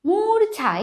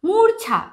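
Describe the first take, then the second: Both takes have the same delivery.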